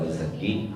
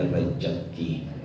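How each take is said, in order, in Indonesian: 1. Konsonan di tengah itu bunyi Z. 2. Konsonan di tengah itu bunyi J. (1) "bukan rizki atau rezeki" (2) "bahasa Betawi di Cepete bilangnya ... rejeki. Ada huruf J-nya"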